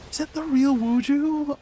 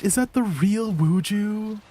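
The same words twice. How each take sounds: First: Much higher, squealing with excitement; high-pitched fangirl squeal; excited squeal. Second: Higher, slowed disbelief; drawn-out surprised question. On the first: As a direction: shriek it like a fan who just spotted her idol. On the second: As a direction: ask it slowly, not believing your eyes. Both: Real, not acted. Spots a surprise guest in chat.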